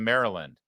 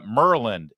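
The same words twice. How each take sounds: First: Said in the usual way. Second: "Merland" squeezed into two syllables, the middle "a" dropped. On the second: Shown as a demonstration. Host demonstrating local Maryland pronunciation, squeezed. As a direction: say "Merland", Baltimore style, clipped short. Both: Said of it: "instead of Maryland".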